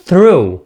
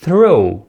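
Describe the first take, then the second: No difference in how they are said.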